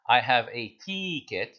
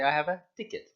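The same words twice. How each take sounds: First: The vowel in ticket is drawn out long. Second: The vowel in ticket is kept short. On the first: The speaker calls it wrong. "You don't say" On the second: The speaker calls it right. "You say"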